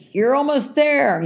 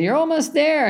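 First: High, slow, drawn-out encouragement; cheering stranger. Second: Higher, sarcastic parroting of the cheer; mocking echo. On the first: Retold or imitated. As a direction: sing it out like a roadside cheerer. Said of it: "and she says". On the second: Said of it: "you hate when people say that".

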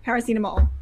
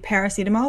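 First: Paracetamol with French vowels, stress on the last syllable; French-accented paracetamol. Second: Put-on Kiwi accent. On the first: Retold or imitated. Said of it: "as soon as I put a French accent on". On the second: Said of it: "with the Kiwi accent".

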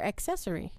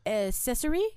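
First: "accessory" said as ak-SESS-ory; hard first C. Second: "accessory" said as a-SESS-ory; soft first C. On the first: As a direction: sound the K in "accessory": ek-sessory. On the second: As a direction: drop the K sound in "accessory": a-sessory. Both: Shown as a demonstration. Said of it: "Is it accessory or accessory".

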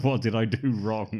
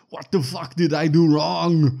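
First: Milder imitation of a wronged child; childlike bewilderment. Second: Very loud, high, drawn-out hero yell; outraged mock shout. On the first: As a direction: plead it loudly but without yelling. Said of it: "He's like a seven-year-old". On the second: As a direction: bellow it slowly like a wronged action hero. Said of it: "'cause he says".

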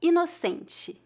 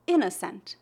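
First: "Inocente" higher, stressed ee-no-SEN-chee; Portuguese pronunciation. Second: "innocent" in English, stressed on IN; English pronunciation. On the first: Teacher answering how it is said in Portuguese, Portuguese pronunciation. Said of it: "a palavra inocente em português". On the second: Teacher asking for the Portuguese of an English word, English pronunciation. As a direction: say "innocent" as IN-uh-sunt. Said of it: "Como se pronuncia a palavra". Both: Shown as a demonstration.

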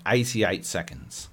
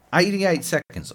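First: Said in the usual way. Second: "Eighty-eight seconds" repeated higher and punched; incredulous emphasis. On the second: Real, not acted. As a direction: raise the pitch to hammer "Eighty-eight seconds". Repeats the time in disbelief.

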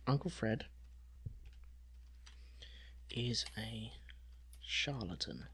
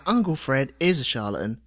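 First: Hushed aside. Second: Light Cockney. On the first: Shown as a demonstration. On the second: Retold or imitated. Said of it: "All right, geezer".

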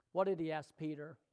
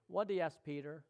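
The two takes are said the same way.

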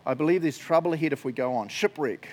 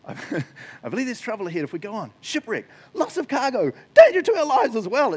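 First: Said in the usual way. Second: Rising higher and louder into an alarmed cry; dramatic reading. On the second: Shown as a demonstration. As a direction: read it like the warning is getting worse. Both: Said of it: "I love this".

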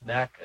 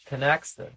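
First: "Tanaka" with a plain k; Tanaka pronunciation. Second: "Tanaxa" with an x, as in "axe"; Tanaxa pronunciation. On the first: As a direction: say "Tanaka" with no s after the k. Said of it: "I've always called it Tanaka". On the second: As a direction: say "Tanaxa" with a ks sound before the last vowel. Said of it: "How come everybody calls it". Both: Shown as a demonstration.

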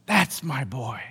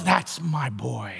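First: Low, soft repeat, a touch quicker; fond fatherly echo. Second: Low, slow, soft and proud; proud fatherly murmur. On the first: Preacher repeating God's pride in Jesus, soft and low. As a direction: say it again, quietly savouring it. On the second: Preacher voicing God proud of Jesus, low fond murmur. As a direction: murmur it like a father beaming at his son. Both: Retold or imitated. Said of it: "he looks at him and goes".

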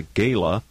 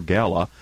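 First: First syllable of GALA rhymes with "say"; long-A gala. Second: GALA said as GAL-uh; first syllable of GALA rhymes with "pal"; short-A gala. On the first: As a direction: say GALA with the vowel of "day". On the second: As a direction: say GALA with the vowel of "cat". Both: Shown as a demonstration. Host offers two pronunciations of gala.

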